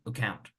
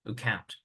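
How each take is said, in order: First: The first vowel is reduced almost to nothing. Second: The first vowel is reduced almost to nothing.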